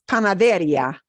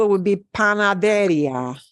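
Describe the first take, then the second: First: Panaderia with the ri punched; correct stress. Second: Panaderia with the stress on the second-to-last syllable, de; teacher demos the wrong stress on panaderia; wrong rule stress. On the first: Teacher models the right stress. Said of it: "is not the way you ever hear that word". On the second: Teacher shows the rule-following stress. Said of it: "If we obeyed the rule". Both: Shown as a demonstration.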